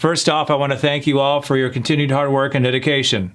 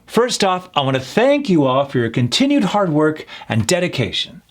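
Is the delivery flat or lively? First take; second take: flat; lively. First: The voice stays flat with no emphasized words. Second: The voice is lively with key words emphasized. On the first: The speaker seems dull and unengaging. The speaker calls it wrong. "He sounds boring and dry" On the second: The speaker seems confident and engaging. The speaker calls it right. "emphasizing those certain words. That comes across as confident, energetic"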